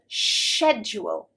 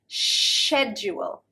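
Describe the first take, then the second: First: The word begins with an sh sound. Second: The word begins with an sh sound.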